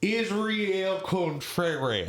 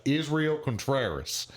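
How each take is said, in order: First: Imitating a foreigner's overdone American accent, high and very slow; mock Texan accent. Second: Israel Contreras in plain American English, drawn out; English pronunciation. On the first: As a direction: stretch it into a botched Texas twang. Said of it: "you were from Texas". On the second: Shown as a demonstration. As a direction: say "Israel Contreras" anglicised, slow and higher. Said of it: "how would you say my name in English".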